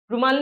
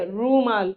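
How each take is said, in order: First: रुमाल with a quick clipped उ; wrong take: रुमाल said short; रुमाल with the उ said fast. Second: रूमाल with the ऊ drawn out; रूमाल said with a stretched ऊ; long ऊ in रूमाल. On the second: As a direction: correct take: रूमाल with a long ऊ. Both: Shown as a demonstration. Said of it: "रुमाल नहीं हो गया".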